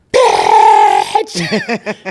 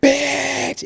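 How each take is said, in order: First: Loud, raw shouted word; full shout. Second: A much higher, lighter echo of "Bitch."; high group echo. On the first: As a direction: blurt it out as loud as you can. Acting class shout exercise. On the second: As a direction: toss "Bitch." back up high like the whole class answering. Class echoes the shouted word. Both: Shown as a demonstration.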